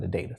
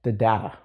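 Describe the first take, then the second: First: "data" said DAY-tuh, low and soft; friendly DAY-tuh pronunciation. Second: "data" said DAH-tuh, low; astute DAH-tuh pronunciation. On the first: Teacher in friendly conversation, "data" as DAY-tuh. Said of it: "just having a friendly conversation". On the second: Teacher trying to sound astute, "data" as DAH-tuh. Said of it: "professional and trying to sound astute". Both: Shown as a demonstration.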